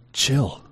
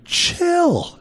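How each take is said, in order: First: Said in the usual way. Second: A sudden high screech at a noisy house; scream. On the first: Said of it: "We would just say". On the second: Retold or imitated. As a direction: scream it in exasperation. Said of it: "you just wanna scream".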